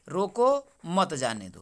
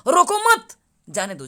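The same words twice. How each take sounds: First: There is a pause after the first word. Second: There is a pause after the second word. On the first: Stop the person; don't let them go. "रोको यहाँ पर देखिए विराम लिया मैंने" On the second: Don't stop the person; let them go. "दूसरा तरीके से मैं बोल रहा हूँ"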